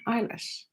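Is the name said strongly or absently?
absently. It is said absently, without much weight.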